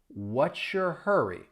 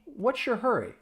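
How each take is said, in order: First: The question is said at a slow pace. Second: The question is said at a fast pace. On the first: "I'll say it slowly" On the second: "Let's speed it up"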